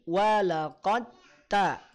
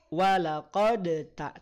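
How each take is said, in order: First: The d merges into the following t. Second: The d is released with an echoing bounce. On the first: The speaker calls it right. "tapi walaqad ta" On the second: The speaker calls it wrong. "tidak perlu dibaca walaqad ta"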